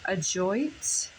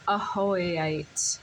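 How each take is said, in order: First: The J is said as a J sound. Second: The J is said as an H sound. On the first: "if I'm saying that correctly" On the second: "a different pronunciation with the J, pronounced ahoite"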